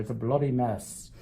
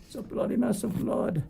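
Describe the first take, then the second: First: Put-on playful English accent; lightly put-on English accent for the fans. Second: Much higher mock English accent; jokey, high English accent. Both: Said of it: "I said that with an English accent".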